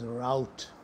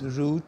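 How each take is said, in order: First: The word is said the American way. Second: The word is said the British way. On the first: "But in American English, ... it's pronounced as route" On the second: "pronounced as root in British English"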